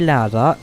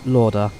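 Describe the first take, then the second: First: The name is said with an Austrian pronunciation. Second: The name is said with a British English pronunciation. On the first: This is how the airline is known. The speaker calls it right. "It's definitely Louder" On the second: This is how an English speaker would read it. The speaker calls it wrong. "Lauder would be the British English way of saying it"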